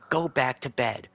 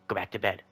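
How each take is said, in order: First: It is screamed very loudly. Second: It is said a little more forcefully.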